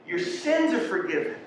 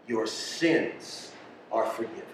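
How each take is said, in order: First: Answering from above. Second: Low, hushed words of forgiveness; gentle pronouncement. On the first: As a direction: lift the pitch high for the answer. Acted divine answer to his yelling. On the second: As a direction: drop low and soft, forgiving tenderly. Acted Jesus forgiving the paralytic. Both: Acted.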